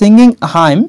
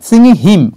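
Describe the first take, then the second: First: The word hymn is said with an 'eye' vowel. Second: The word hymn is said with an 'ih' vowel. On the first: The speaker calls it wrong. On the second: The speaker calls it right.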